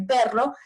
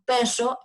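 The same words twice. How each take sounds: First: The r is said as a full multiple trill. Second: The r is said as a regional variant, not trilled. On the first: This is the standard form of the sound. "vibrante múltiple" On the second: This is how people in one region say it. "aquí en Mendoza muchos decimos perro"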